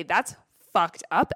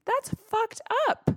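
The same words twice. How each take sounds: First: Said in the usual way. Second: Much higher, indignant "That's fucked up."; mock outrage. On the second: Shown as a demonstration. Scolding her own insecurity, a much higher indignant voice.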